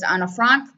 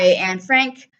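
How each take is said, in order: First: The name is said with a German accent. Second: The name is said with a plain English accent.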